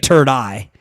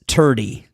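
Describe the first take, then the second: First: The word ends with an 'eye' sound. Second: The word ends with an 'ee' sound. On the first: "Or it could be" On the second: "I don't exactly know how to pronounce it"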